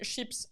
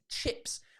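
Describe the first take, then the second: First: It begins with a soft sh sound. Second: It begins with a sharp ch sound. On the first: This is how French speakers say it. The speaker calls it wrong. "French people pronounce it chips" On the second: This is the English pronunciation. The speaker calls it right. "It's not a sh, it's a ch"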